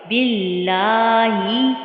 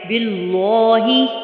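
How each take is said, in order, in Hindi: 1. L बारीक पढ़ा जाता है। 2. L मोटा पढ़ा जाता है। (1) "बल्कि बारीक" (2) "हम इसको ऐसे नहीं पढ़े बिल्लॉहि लाम को मोटा नहीं पढ़ेंगे"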